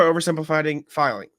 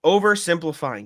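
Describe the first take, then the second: First: "oversimplifying" stumbled into "filing"; tongue-tied stumble. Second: "Oversimplifying" said cleanly and a bit higher; careful correction. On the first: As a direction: trip over "oversimplifying" and garble it into "filing". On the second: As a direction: restart and say "Oversimplifying" carefully, every syllable clear. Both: Real, not acted. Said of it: "Jesus Christ".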